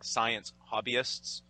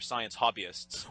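First: It is spoken very slowly and deliberately. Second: It is spoken at a normal conversational pace.

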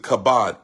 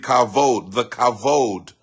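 First: The middle consonant is a B sound. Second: The middle consonant is a V sound. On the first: The speaker calls it wrong. "Some people say, pronounce it Kabod, K-A-B-O-D" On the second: The speaker calls it right. "but it's actually Kavod"

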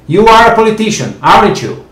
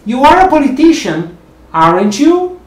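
First: The voice falls at the end. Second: The voice rises at the end.

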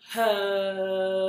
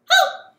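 First: Hello is said very slowly. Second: Hello is said very fast.

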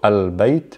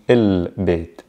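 First: The article is pronounced with an 'a' vowel. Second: The article is pronounced with an 'i' vowel. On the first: This is the formal standard form. "in MSA, we'll say things like al" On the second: This is the everyday spoken form. "in spoken il"

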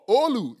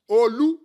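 First: The name is said with an American accent. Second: The name is said with a Nigerian accent.

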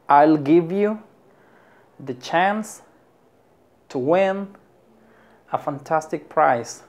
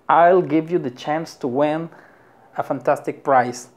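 First: The sentence is said at a slower pace. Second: The sentence is said at a faster pace.

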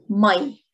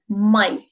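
First: The word is said in Lebanese Arabic form. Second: The word is said in Lebanese Arabic form.

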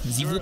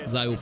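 First: The name is pronounced with a French 'ee' sound. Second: The name is pronounced with an English 'eye' sound. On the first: "pe franceză" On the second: "pe engleză"

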